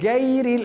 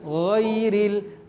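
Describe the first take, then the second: First: It starts with a hard g sound. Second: It starts with a throaty gh sound. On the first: The speaker calls it wrong. "itu huruf G Indonesia kalau begitu dipakai ... oh tidak boleh" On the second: The speaker calls it right. "Harus ghairil"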